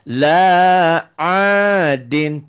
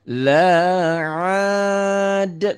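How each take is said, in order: First: The word is said with its full ending. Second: The word stops short, with its ending dropped. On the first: The reading continues without stopping. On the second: The reader stops at the end of the verse.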